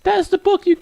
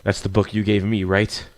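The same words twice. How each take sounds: First: Put-on bookish girl character voice. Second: Said in the usual way. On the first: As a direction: say it way up high as the shy girl. Starts line in the girl's voice.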